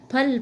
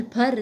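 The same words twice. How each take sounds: First: Said in the usual way. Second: फर ending in r, not l; Eastern Hindi r. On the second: Shown as a demonstration. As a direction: say फर as phar. (फर, ल की जगह र) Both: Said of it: "लय प्राय र के रूप में".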